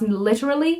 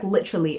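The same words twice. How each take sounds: First: Every syllable of the word is pronounced fully. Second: The word is said quickly with syllables reduced. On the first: This is the technically correct form. "it is technically supposed to be pronounced literally" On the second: This is how people casually say it. "everyone just says like literally"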